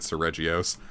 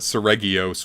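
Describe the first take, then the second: First: The G is pronounced soft. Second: The G is pronounced hard. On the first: "I'm going to keep calling it Seregios" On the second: "you'd say it with a hard G"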